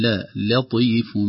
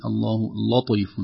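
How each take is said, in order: First: "لطيف" with a clear, thin "la" before the heavy ط; careful "لطيف", isolating the light "la" first; light lam. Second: "لطيف" with the ل darkened by the ط; slow "لطيف", heavy from the first letter; wrong heavy lam. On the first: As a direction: slowly keep the ل of "لطيف" light. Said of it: "نقول". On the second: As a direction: thicken the first syllable of "لطيف" to "law". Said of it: "قد يؤثر على اللام، فنقول". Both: Shown as a demonstration.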